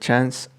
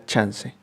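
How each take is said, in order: First: The word is said with English pronunciation. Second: The word is said with Spanish pronunciation. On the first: This is the original borrowed form. "su pronunciación de chance" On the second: This is the form it changed into. "a chance"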